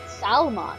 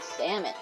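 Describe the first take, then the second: First: The word is said as it is spelled. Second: The word is said the usual way.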